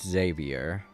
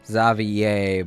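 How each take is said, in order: First: The name is said with English pronunciation. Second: The name is said with French pronunciation. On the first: "in many other English-speaking countries, it's pronounced Xavier" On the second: "In French, it's Xavier"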